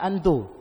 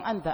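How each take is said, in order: First: The word ends with an 'oo' vowel. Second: The word ends with an 'ah' vowel. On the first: This is how some Arabs say it colloquially. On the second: This is the formal standard form. "bukan bilang anta"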